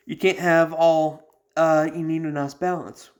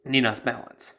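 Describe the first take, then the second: First: Raised and louder, slowed, leaning on a nice balance; emphatic. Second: Said in the usual way. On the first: Real, not acted. Explaining the Legion to would-be recruits, emphatic and slow. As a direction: press the point hard, slowly.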